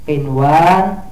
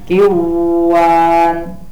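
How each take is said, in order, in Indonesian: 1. Bunyi n jelas dibunyikan sebelum w. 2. Bunyi n dihilangkan sebelum w. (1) "dibaca jelas nunnya" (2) "jangan dibaca kiwan"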